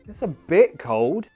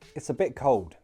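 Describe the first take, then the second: First: It is said hesitantly, with uncertain intonation. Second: It is said evenly with no special stress. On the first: It is cold but not extremely cold. "if you say it like you're unsure, eh" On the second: It is slightly colder than normal. "Without special intonation"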